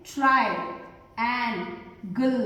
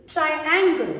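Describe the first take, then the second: First: "ट्रायंगल" low and very slow, as ट्राय, एं, गल; syllable by syllable. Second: Said in the usual way. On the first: Shown as a demonstration. Teacher shows three syllables, "ट्रायंगल" slowly split. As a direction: sound out "ट्रायंगल" in three separated parts. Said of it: "तीन syllables का use".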